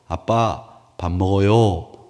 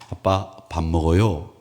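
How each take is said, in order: First: It is said as a call to Dad. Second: It is said as a plain report.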